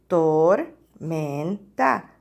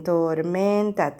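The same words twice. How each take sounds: First: "Tormenta" in three slow, low, separated syllables. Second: Said in the usual way. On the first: Shown as a demonstration. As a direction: break "Tormenta" into tor, men, ta. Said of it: "cuál es la primera sílaba". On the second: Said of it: "tres sílabas".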